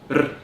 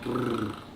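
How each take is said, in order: First: The r sound is held only briefly. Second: The r sound is held for a long time. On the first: "it can sound short like rrr" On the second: "or long rrr"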